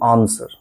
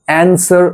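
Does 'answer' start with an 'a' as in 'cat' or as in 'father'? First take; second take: father; cat. First: The first vowel sounds like 'a' in 'father'. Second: The first vowel sounds like 'a' in 'cat'. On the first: The speaker calls it right. "আমরা বলবো আনসার" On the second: The speaker calls it wrong. "অ্যান্সার না বলে"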